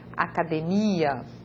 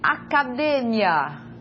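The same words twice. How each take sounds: First: The stress falls on the syllable 'mi'. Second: The stress falls on the syllable 'de'.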